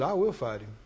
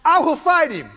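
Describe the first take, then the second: First: Low, soft, understated vow; quiet first resolve. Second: High, forceful, confident vow; strong resolve. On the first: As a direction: say it low, as faith just starting to stir. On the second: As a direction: declare it firmly, faith at full strength. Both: Retold or imitated. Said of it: "It just gets stronger and stronger".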